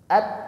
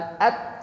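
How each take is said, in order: First: The final t is released crisply without hissing. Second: The final t is released with a hissing sound. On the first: The speaker calls it right. "Nah, itu" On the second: The speaker calls it wrong. "lidahnya bergeser pada makhraj huruf sin, desis"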